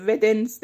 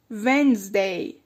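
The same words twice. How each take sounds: First: Wednesday with every letter, Wed-nes-day; wrong Wednesday with d. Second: Wednesday slow as Wenzday, no d; right Wednesday, silent d. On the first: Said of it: "اینجوری نخونینش". (Wednesday غلط با د، ودنزدی) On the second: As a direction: drop the d: Wenzday, drawn out. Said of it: "اون د خونده نمیشه". (Wednesday درست و آهسته، ونزدی) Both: Shown as a demonstration.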